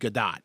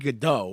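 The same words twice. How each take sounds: First: The final T is clearly pronounced. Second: The final T is silent. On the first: The speaker calls it right. "but apparently it's Godot" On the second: The speaker calls it wrong. "we thought like that's like you know the silent T"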